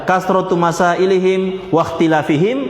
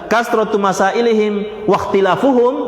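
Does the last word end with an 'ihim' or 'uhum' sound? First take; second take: ihim; uhum. First: The last word ends with the sound 'ihim'. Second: The last word ends with the sound 'uhum'. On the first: The disputing is tied to the questions, a shallower meaning. The speaker calls it wrong. "dibaca jer waqtilafihim ... itu kurang dalam maknanya" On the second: The disputing itself is what destroyed them, a deeper meaning. The speaker calls it right. "dibaca rafa ... itu lebih dalam maknanya"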